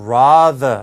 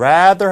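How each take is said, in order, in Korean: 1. 영국식 발음입니다. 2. 미국식 발음입니다. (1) "영국식 발음으로 좀 ... rather 이렇게 발음하고 있고" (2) "rather 하지 않고"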